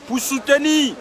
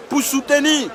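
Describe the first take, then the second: No difference in how they are said.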